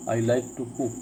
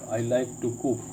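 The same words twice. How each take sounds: The two takes are said the same way.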